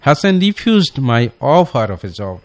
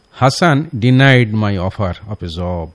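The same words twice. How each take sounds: First: Hasan refused my offer of a job, drawn out; slow corrected version; slow dictation. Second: Slow wrong model sentence. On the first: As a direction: dictate the corrected sentence slowly. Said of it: "সে এটাকে refuse করলো". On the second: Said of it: "এটা একটি ভুল sentence". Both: Shown as a demonstration.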